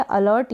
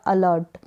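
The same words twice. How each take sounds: First: अलर्ट with the r sounded; r pronounced. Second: अलर्ट with a silent r; r dropped. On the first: Teacher offering both readings, r pronounced in अलर्ट. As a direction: let the r be heard before t in अलर्ट. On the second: Teacher offering both readings, r dropped in अलर्ट. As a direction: go from the vowel straight to t in अलर्ट. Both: Shown as a demonstration. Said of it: "दोनों ही pronunciation सही है".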